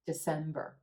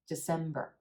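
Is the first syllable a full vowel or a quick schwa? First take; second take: schwa; schwa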